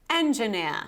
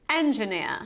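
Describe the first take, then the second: The two takes are said the same way.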